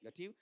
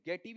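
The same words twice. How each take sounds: First: गटिव with a short schwa, quick and light; correct vowel. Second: गेटिव with a long e in the first syllable; wrong vowel. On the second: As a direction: say गेटिव stretching the ए. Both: Shown as a demonstration. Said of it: "गेटिव या गटिव?".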